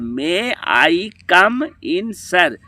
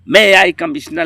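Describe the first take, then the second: First: The last words are said clearly and separately. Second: The last words blur into one word, commissioner. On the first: The speaker calls it right. "ऐसे बोल जाता है" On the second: The speaker calls it wrong. "अब तो ऐसे बोलता है"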